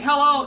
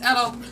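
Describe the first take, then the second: First: The word begins with an h sound. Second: The word begins without an h sound. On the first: "Instead of saying hello" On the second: "just take out the H"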